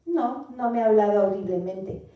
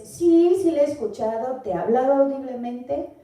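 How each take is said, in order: First: Said in the usual way. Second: A bright, eager sí, sí, mock listener reply; eager yes answer. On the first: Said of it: "o pensándolo bien". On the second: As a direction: answer sí like an eager believer, lightly voiced. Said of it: "Y si dices".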